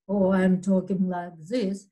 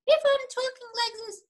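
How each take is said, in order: First: Dropped a little lower to contrast; a slightly lower, plain contrast take; low pitch demo. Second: Much higher, fast and squeaky; pitched way up, quick, to show a high voice; high pitch demo. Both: Shown as a demonstration. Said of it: "That will be a different pitch".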